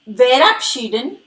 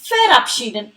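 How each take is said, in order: First: The word begins with a V sound. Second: The word begins with an F sound. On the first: The speaker calls it wrong. "you must have observed verabschieden is with V, but I am not pronouncing it as verabschieden" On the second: The speaker calls it right. "rather verabschieden. It is because the alphabet V is pronounced as V in German"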